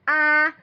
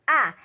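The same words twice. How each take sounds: First: The pitch stays high and level. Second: The pitch falls sharply from high.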